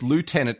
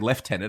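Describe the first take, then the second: First: It is said the American way, loo-tenant. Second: It is said the Australian way, lef-tenant.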